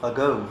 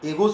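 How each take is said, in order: First: The first vowel is a short schwa. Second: The first vowel is an 'e' sound. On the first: The speaker calls it right. "जो अंग्रेजी में कहा जाता है वह है अगो" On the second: The speaker calls it wrong. "आप तो उसको एगो पढ़े हैं"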